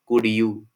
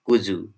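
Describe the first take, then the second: First: The d and y sounds stay separate. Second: The d and y merge into a j sound. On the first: "In isolation, it is pronounced as could, and you is pronounced as you" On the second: "in the rapid speech, it is pronounced as kuzu"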